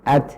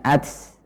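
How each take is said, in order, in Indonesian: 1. Huruf t terakhir berakhir dengan hembusan udara ringan. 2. Huruf t terakhir berakhir dengan bunyi desis. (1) "suara terhenti kemudian udara mengalir" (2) "bahkan menjadi huruf S hembusan udaranya ini"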